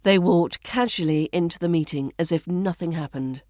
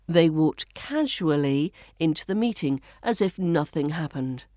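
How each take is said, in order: First: Connected reading with "casually" as KAZH-uh-lee; "casually" shortened, flowing straight on; reduced pronunciation. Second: Careful, spaced reading with "casually" as KAZH-oo-uh-lee; "casually" carefully said in full; full pronunciation. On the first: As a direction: run it together, "casually" in three syllables. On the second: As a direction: give "casually" all four syllables, pausing between phrases. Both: Shown as a demonstration. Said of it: "we reduce this to".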